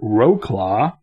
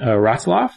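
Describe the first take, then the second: First: The name is sounded out as English spelling. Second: The name is said with Polish pronunciation. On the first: The speaker calls it wrong. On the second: The speaker calls it right.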